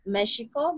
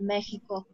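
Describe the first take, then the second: First: The x is not the h-like sound. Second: The x is an h-like sound. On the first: This is the original native pronunciation. "origin originally it was Mexico" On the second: This is the current Spanish pronunciation. "but now it's pronounced Mexico"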